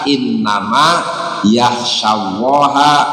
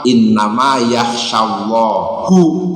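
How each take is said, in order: First: Allah ends with an 'a' vowel. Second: Allah ends with a 'u' vowel. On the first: Allah is the one who is feared. The speaker calls it right. "harusnya dibaca" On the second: Allah is the one who fears. The speaker calls it wrong. "dibacanya hu kan ya jadi fa'il"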